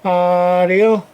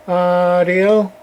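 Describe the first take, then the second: No difference in how they are said.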